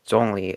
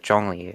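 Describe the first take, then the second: First: It begins with a plain z sound. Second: It begins with a zh sound. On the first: The speaker calls it wrong. "with just the Z" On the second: The speaker calls it right. "with the Z H"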